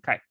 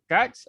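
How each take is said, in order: First: The final sound stops with no puff of air. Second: The final sound has a little puff of air.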